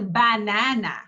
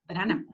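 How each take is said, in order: First: The unstressed vowels are full and clear. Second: The unstressed vowels are short, weak schwas. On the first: The speaker calls it wrong. "I don't say banana" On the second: The speaker calls it right. "No, banana. So it's very fast sound"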